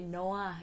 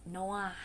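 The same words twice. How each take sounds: First: Noah said the mistaken way; wrong pronunciation. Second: Noah said the proper English way; correct pronunciation. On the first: Vlogger warning how not to say Noah, mispronounced. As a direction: mispronounce Noah as a learner would. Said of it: "Don't say it Noah". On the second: Vlogger correcting a friend's name Noah, correct pronunciation. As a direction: model Noah as NO-uh. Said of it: "it's Noah". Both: Shown as a demonstration.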